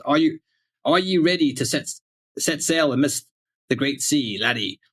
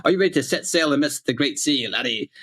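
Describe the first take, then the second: First: Lightly hammed-up old English pirate. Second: Put-on old English pirate read, a bit higher; pirate captain asking the crew. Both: Shown as a demonstration. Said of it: "old English pirate voice here".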